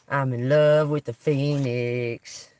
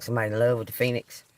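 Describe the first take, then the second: First: Slow, with "love" drawn out and leaned on; slow emphatic "love"; emphatic repeat. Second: Said in the usual way. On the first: Shown as a demonstration. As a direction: linger on "love", savouring it. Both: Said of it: "repeats the card phrase".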